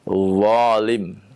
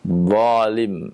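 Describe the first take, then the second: No difference in how they are said.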